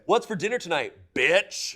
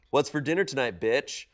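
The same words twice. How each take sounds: First: The last word is said loudly, shouted. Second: The last word is said at normal loudness.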